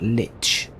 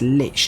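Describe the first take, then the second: First: It is said with a t sound before ch. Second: It is said with no t sound before ch. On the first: The speaker calls it wrong. "not Lich" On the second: The speaker calls it right. "It is without the T. It's Lich"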